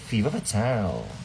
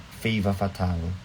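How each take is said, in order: First: The first vowel of the name sounds like 'ee'. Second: The first vowel of the name sounds like 'ah'. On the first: The speaker calls it right. "pinaka-favorite kong pronunciation kay Manila" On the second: The speaker calls it wrong. "ang basa ko talaga dati"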